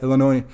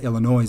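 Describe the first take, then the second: First: The final S is silent. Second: The final S is pronounced. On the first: The speaker calls it right. "we say" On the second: The speaker calls it wrong. "I say Illinois sometime with an S. Cringe"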